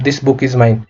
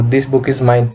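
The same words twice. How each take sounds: First: Said in the usual way. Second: Very slow, word by word, for students to follow; slow dictation pace. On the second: Shown as a demonstration. Teacher slowly repeats the example for the class. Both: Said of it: "तो this book is mine".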